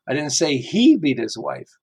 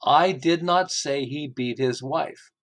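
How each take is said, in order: First: "he" lifted with a rise; single out "he"; stress on HE. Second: Slow, leaning on "not" in "I did not say"; stress on NOT. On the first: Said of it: "how many different ways this can be interpreted". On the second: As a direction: stretch out "not", rising. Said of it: "listen to how many different ways this can be interpreted". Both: Shown as a demonstration.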